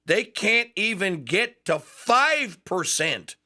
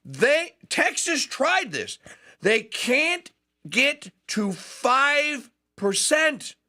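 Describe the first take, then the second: First: Slow, weighted "five percent"; stress on five percent. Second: High, slow, incredulous "five percent"; emphatic repeat, much higher. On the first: Host stressing the figure to listeners, slow and weighted. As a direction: lean hard on "five" in "five percent". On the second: Host repeating the figure to his audience in high, slow disbelief. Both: Shown as a demonstration. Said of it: "let me repeat that".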